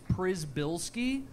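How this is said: The name is said with an American pronunciation. "the American version is"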